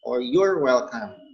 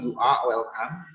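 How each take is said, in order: First: 'You are' is contracted into one syllable. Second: 'You are' is said as two full words. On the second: "You can say you are welcome"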